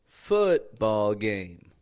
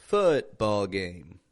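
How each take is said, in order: The two takes are said the same way.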